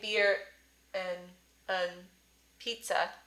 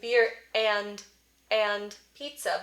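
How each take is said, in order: First: The vowel in 'and' is a central uh. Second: The vowel in 'and' is a full open ah. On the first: "but I'm not saying" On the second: "I'm not saying"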